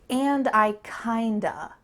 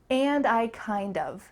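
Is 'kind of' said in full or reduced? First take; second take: reduced; full. First: The phrase ends in a reduced 'kinda'. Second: The phrase ends in a full 'kind of'. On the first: "with reductions, changing of to a" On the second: "she says the full phrase"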